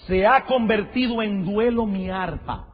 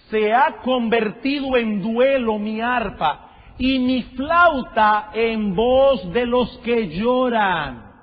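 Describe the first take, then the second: First: Said in the usual way. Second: Drawn out slowly, a bit louder, every word weighed; slow lamenting reading. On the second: Shown as a demonstration. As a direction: read it again slowly as a lament for the congregation. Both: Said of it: "Oigan eso, hermanos".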